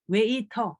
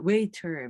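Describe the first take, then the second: First: It is said with a Korean accent. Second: It is said with an English accent. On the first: "mais c'est waiter" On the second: "c'est pas waiter"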